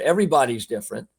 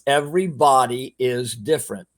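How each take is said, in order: First: The phrase is said at a faster pace. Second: The phrase is said at a slower pace.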